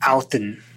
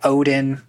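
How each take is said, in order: First: The middle consonant sounds like TH, end stressed. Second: The middle consonant is a plain D sound.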